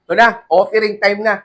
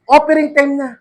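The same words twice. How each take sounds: First: Said in the usual way. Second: Announcing offering time. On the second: Acted.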